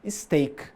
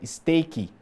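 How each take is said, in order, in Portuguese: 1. A palavra termina claramente no som de k. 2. Um som de vogal extra vem depois do k final.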